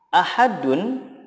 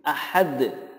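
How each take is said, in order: First: The word ends with a vowel and n. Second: The word ends on a bouncing d consonant. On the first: The reading continues without stopping. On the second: The reader stops at this word.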